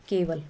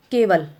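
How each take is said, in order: First: Said in the usual way. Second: Teacher demonstrating केवल letter by letter; careful demo word. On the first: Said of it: "हमने सीधा सीधा बोल दिया केवल". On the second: Shown as a demonstration. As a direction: sound out केवल clearly for the class. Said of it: "छोटा ए बोल रहे हैं, तो हम इस तरीके से बोलेंगे".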